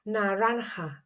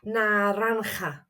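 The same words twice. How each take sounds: First: The middle consonant is a soft, gentle sound. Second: The middle consonant is a harsh throaty sound. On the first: "just soften the part and just practice it like this" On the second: "It's quite a throaty sound"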